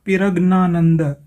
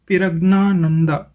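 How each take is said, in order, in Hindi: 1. नाम को अक्षर-अक्षर करके पढ़ा जाता है, 'pira' से शुरू करके। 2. नाम को अक्षर-अक्षर करके पढ़ा जाता है, 'pira' से शुरू करके।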